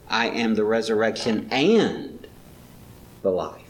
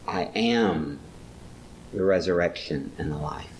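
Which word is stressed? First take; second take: resurrection, life; am. First: The stress is on resurrection and life. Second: The stress is on the word am. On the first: The point is both the resurrection and the life. "Maybe he's stressing not just the resurrection, but both" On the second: It is a present reality, not a future one. "it's not a future, it's a present reality"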